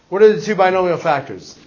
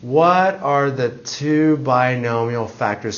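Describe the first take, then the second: First: It is asked in a normal, alert voice. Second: It is said in a groggy, sleepy voice. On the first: A genuine question is being asked. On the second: The question is echoed back without attention.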